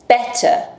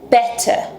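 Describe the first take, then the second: The two takes are said the same way.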